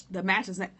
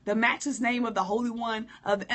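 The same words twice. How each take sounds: First: Grand churchy prayer opening; overblown prayer voice. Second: Grand churchy prayer opening, a little louder; overblown prayer voice. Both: Shown as a demonstration. Mocking the overdone prayer, hint of grandeur. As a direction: puff it up like a showy saint. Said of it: "That's too much".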